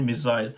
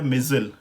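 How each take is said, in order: First: It is said with a British pronunciation. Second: It is said with an American pronunciation.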